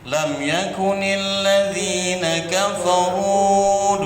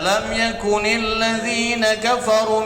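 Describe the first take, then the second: First: The final vowel of kafaru is long. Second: The final vowel of kafaru is short. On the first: The speaker calls it right. "Yang benar tetap jamak dia ... dua harokat" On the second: The speaker calls it wrong. "Tak boleh dibaca ... Salah"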